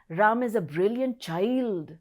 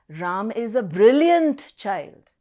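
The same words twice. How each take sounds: First: The stress falls on the word child. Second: The stress falls on the word brilliant. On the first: Even though a child, he is still brilliant. "The emphasis on child now" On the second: The child is brilliant, not dull. "Now I'm stressing on brilliant"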